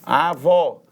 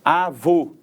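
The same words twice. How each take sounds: First: "Avó" with a wide-open ó; open final vowel. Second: "Avô" with a closed, rounded ô; closed final vowel. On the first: Teacher giving an example of open sound, "Avó" with open ó. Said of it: "Um som aberto". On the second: Teacher giving an example of closed sound, "Avô" with closed ô. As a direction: end "Avô" on a tight "oh" sound. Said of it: "som fechado". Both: Shown as a demonstration.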